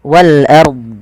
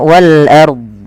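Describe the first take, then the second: No difference in how they are said.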